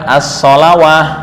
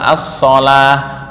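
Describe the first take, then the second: First: It has a w sound before the final a. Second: It ends in a long a with no w sound. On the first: The speaker calls it wrong. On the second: The speaker calls it right. "Di sholah juga sama"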